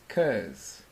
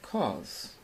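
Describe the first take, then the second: First: It is said with an American accent. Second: It is said with a British accent.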